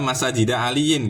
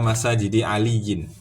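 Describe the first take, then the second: First: The word masajid ends with an 'a' vowel. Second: The word masajid ends with an 'i' vowel. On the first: The speaker calls it wrong. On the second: The speaker calls it right.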